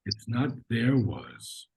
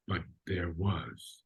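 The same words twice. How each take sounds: First: "there" stressed and dragged slowly; "there was" with "there" punched slowly; wrong stress on there. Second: "but there was" softly, "there" barely touched; unstressed there. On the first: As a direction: lean hard on "there" to show the mistake. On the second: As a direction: let "there" slip by unstressed. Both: Shown as a demonstration.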